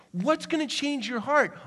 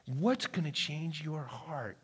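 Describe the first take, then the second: First: Much higher, What's gonna change your heart? lifted and pressing; raised urgent question. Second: Quiet question. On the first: Preacher repeats question, rising. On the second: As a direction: ask it softly and slowly, almost to yourself. Preacher asks quietly, slowly. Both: Real, not acted.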